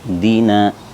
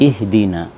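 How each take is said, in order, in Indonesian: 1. Hamzah pembuka itu sama sekali dihilangkan. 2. Hamzah pembuka itu jelas dilafalkan. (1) "hilang kasrohnya hamzah" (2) "hamzahnya terlihat kasrohnya"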